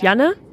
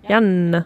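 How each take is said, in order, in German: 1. Der n-Laut in der Mitte ist kurz und schnell. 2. Der n-Laut in der Mitte ist lang und doppelt. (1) "du sagst halt nicht Janne, wie du es schnell sagst" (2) "du sprichst die Buchstaben einzeln aus"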